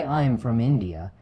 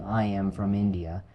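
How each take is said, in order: First: "I'm" as one syllable; fluent short form "I'm"; contracted. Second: "I am" said as two full words; full form "I am", no contraction; uncontracted. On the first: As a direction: merge "I am" into "I'm" in "I'm from India". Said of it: "Using contractions". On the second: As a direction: keep "I" and "am" separate in "I am from India". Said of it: "Instead of saying". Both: Shown as a demonstration.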